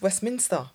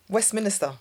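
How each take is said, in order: First: No extra vowel is added, giving three syllables. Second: An extra vowel is added, giving four syllables. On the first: The speaker calls it right. "There's no extra I" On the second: The speaker calls it wrong. "I used to always say Westminster"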